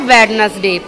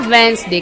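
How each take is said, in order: First: The first d sound is pronounced. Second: The first d sound is left silent. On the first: This is how the word is written. "लिखते हमने क्या है?" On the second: This is how the word is spoken. "पर बोलेंगे क्या?"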